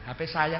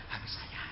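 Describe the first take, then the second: First: Said in the usual way. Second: Barely audible whisper. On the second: Shown as a demonstration. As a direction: whisper it so nobody hears. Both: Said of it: "jangan keras-keras".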